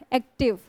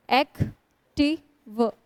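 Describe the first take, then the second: First: Said in the usual way. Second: active very slowly, एक - टी - व with long stops; syllable by syllable. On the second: Shown as a demonstration. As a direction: pause after each of the three beats in active. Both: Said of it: "तीन syllable वाले होते हैं".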